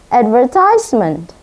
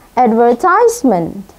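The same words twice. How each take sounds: The two takes are said the same way.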